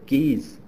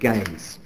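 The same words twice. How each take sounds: First: The name is said with a French pronunciation. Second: The name is said with an English pronunciation. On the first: "or Mary of Guise" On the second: "Not having French, we'll call her Mary of Guise"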